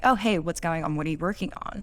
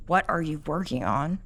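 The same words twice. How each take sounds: First: Easy, open catch-up tone; just checking in, no judgment; friendly question. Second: Eye-rolling, suspicious "What are you working on?"; accusing question. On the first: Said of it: "in the first instance where you're just like". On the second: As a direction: ask it with a frown, as if they're at fault. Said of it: "She's rolling her eyes". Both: Shown as a demonstration.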